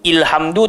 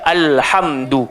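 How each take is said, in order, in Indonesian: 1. Kata ini diawali dengan vokal i. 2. Kata ini diawali dengan vokal a. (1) "Tak bunyi ilhamdu" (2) "bunyi dia alhamdu"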